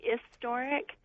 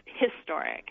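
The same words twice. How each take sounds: First: The word begins without an h sound. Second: The word begins with an h sound. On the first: This is an East Coast way of saying it. "with an East Coast accent, people are more likely to say historic, so without that H sound" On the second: This is the standard broadcast way of saying it. "in standard American English, you know, broadcast English, it's historic"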